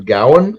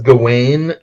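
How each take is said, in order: First: Gawain is said in an older English way. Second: Gawain is said in the modern English way. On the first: "if you go back to Old English, te- technically" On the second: "modern English pronounces it"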